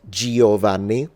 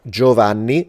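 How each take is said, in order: First: The i after the g is pronounced. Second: The i after the g is silent. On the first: The speaker calls it wrong. "not Giovanni" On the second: The speaker calls it right. "That E is not pronounced"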